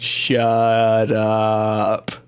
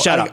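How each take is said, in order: First: The words are said slowly and drawn out. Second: The words are said quickly under the breath. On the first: This is how the slowed-down clip makes it sound. "they're slowing it down so you could notice it" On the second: This is how it was actually said. "But in fact, she's just going"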